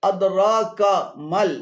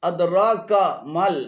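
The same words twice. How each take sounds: Both takes have the same delivery.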